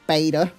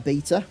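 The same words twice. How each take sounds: First: It is said in an American accent. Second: It is said in a British accent.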